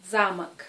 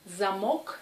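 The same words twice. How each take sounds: First: "замок" as ZA-mak, loud first syllable then falling; first-syllable stress. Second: "замок" as za-MOK, rising on the end; second-syllable stress. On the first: Teacher contrasting two words, "замок" stressed on the first a. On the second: Teacher contrasting two words, "замок" stressed on the o. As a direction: hit the last syllable of "замок". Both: Shown as a demonstration. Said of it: "la signification change si on met, euh, l'accent".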